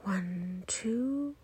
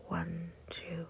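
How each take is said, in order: First: Soft count, clearly rising on two; inhale count. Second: Soft, hushed falling count; exhale count. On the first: Guide counting two seconds of breathing in, rising count. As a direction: count gently upward as the breath fills. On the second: Guide counting two seconds of breathing out, hushed count. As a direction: count quietly down as the breath leaves. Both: Shown as a demonstration.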